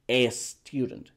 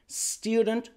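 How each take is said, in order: First: The word begins with an added vowel before s. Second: The word begins directly with the s sound. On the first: The speaker calls it wrong. "esa costumbre mala de decir" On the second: The speaker calls it right. "Es student"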